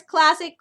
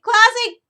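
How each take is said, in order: First: Said in the usual way. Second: Classic punched high and loud; the second classic louder and higher; stress on classic. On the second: Shown as a demonstration. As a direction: hit classic hard, rising excitement. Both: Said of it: "classic Looney Tunes".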